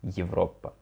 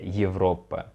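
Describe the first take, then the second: First: The word begins with a sound between 'e' and 'ye'. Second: The same.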